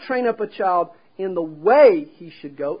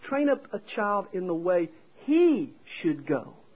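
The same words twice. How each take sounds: First: The word "way" carries the emphasis. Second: The word "he" carries the emphasis. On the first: There is one set path every child should follow. The speaker calls it wrong. "We emphasize the way" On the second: The path should suit the individual child's capabilities. The speaker calls it right. "the Hebrew emphasizes the word he"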